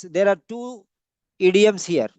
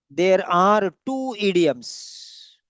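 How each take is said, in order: First: Said in the usual way. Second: "There are two idioms" drawn out very slowly; slow, emphatic repetition. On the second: Shown as a demonstration. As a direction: spell it out word by word for the class, slowly. Teacher repeats slowly for students.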